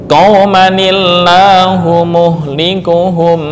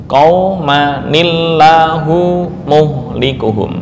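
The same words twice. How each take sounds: The two takes are said the same way.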